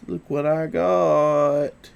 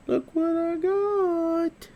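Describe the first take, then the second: First: Said in the usual way. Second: Much higher, sing-song voice for the dog; high dog-talk voice. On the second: Acted. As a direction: coo it up high to tempt the puppy. Showing treats to his dog.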